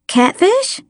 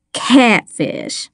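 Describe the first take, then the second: First: "Catfish" high, rising as a question; questioning suggestion. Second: "Catfish" landed with a falling, satisfied tune; beaming. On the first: Girl suggests "Catfish" to Miss Lana, rising questioningly. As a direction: offer "Catfish" tentatively, voice lifting sharply at the end. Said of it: "I suggested". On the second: Miss Lana accepts "Catfish", beaming, tune falling. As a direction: beam on "Catfish" as the answer found. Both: A narrator's reading.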